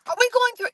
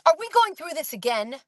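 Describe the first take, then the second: First: Sharp high exasperated snap; imitating a witness's impatient comeback; mock exasperated question; snippy retort. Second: A touch of impatient sarcasm; lightly imitated exasperation; exasperated witness. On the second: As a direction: retell her annoyed comeback lightly. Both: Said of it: "She said it just like that".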